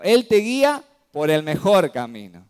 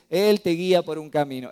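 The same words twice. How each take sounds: First: "mejor" pressed out loud and firm; preacher correcting the verse, punching "mejor" loudly; stress on mejor. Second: Said in the usual way. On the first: Shown as a demonstration. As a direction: lean hard on "mejor camino" to correct. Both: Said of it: "Pero no dice".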